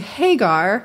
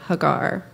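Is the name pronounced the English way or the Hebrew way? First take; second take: English; Hebrew. First: The name is said with an English pronunciation. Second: The name is said with a Hebrew pronunciation. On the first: "Most English pronunciations pronounce her name Hagar" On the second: "I will attempt to use the Hebrew pronunciation of her name"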